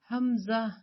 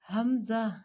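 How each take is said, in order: First: The m sound is kept short. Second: The same.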